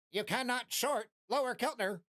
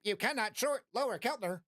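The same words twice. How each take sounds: First: Lightly voiced automated message; mock robot alert. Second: Lightly voiced automated message, falling; mock robot alert. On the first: System alert to the floating head, lightly robotic. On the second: System alert repeated to viewers, lightly robotic.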